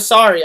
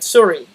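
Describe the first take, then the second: First: The first vowel sounds like oh. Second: The first vowel sounds like ooh. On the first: "Instead of sorry" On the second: "sometimes I'll say them as like ooh instead of oh"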